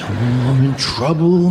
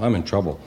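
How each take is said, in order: First: It is said with alarm and strong emotion. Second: It is said calmly, with little emotion.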